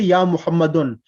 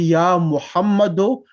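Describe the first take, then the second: First: The name ends with an n sound. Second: The name ends without an n sound. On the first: The speaker calls it wrong. "we don't say ya Muhammadun" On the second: The speaker calls it right. "We say ya Muhammadu"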